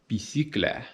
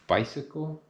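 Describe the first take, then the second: First: It is said in a French accent. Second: It is said in a plain English accent.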